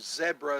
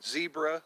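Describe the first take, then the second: First: It is said with a British pronunciation. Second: It is said with an American pronunciation.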